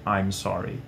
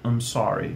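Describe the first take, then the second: First: The full 'I'm' is pronounced before 'sorry'. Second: The 'I' is dropped, leaving only 'm sorry'. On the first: "no lugar de" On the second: "é muito comum a gente ouvir eles falando"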